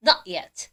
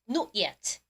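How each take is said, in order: First: American "Not yet", open "naht"; American "Not yet" with an ah vowel in Not; American pronunciation. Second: British "Not yet", rounded o in Not; lower, softer British "Not yet"; British pronunciation. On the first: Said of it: "미국 발음은요". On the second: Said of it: "영국 발음 뭐라고요". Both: Shown as a demonstration.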